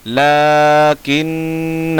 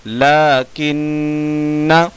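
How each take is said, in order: First: लाकिन्ना with long ला, hummed न्न, long final आ; slow chanted लाकिन्ना, alif sounded; written-form reading. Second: लाकिन्ना with long ला, hummed न्न, short last vowel; slow chanted लाकिन्ना, last alif silent; correct recitation. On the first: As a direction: hold the last आ of लाकिन्ना. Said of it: "लिखने का तरीका". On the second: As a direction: end लाकिन्ना on a brief न. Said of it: "पढ़ने का तरीका". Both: Shown as a demonstration.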